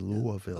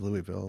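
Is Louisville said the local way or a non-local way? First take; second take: local; non-local. First: It has the local residents' pronunciation. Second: It has a non-local pronunciation. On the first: This is how people who live there say it. "they say Louisville" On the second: This is how the speaker personally says it. "I say Louisville"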